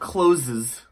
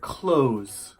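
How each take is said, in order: First: The word is said with two syllables. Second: The word is said with one syllable. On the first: The speaker calls it wrong. "不是 closes" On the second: The speaker calls it right. "是 close"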